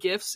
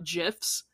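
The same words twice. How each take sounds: First: It begins with a hard g sound. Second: It begins with a soft j sound. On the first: The speaker calls it right. "I will die on the hill of pronouncing it GIFs" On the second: The speaker calls it wrong. "It is not GIFs"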